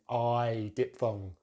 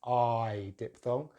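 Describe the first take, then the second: Both takes have the same delivery.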